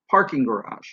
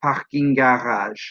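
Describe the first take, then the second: First: "parking garage" with strong PAR, weaker rest; English stress. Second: "parking garage" in French, all syllables evenly weighted; French "parking garage" on a level tone, no stressed syllable; completely flat. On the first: Teacher combining two English words, "parking garage" with uneven English stress. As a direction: punch the first syllable of "parking garage" and fall away. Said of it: "this is how the stress works out in English". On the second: Teacher combining the two in French, "parking garage" completely flat. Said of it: "completely flat".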